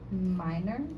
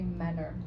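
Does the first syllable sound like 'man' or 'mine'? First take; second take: mine; man. First: The first vowel sounds like 'eye'. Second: The first vowel sounds like 'a' in 'cat'. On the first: The speaker calls it wrong. "you guys pronounce it as minor" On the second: The speaker calls it right. "it's actually manner"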